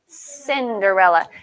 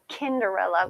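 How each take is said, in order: First: The name begins with a soft S sound. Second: The name begins with a hard K sound. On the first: The speaker calls it right. "we call her Cinderella" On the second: The speaker calls it wrong. "we don't call her Kinderella"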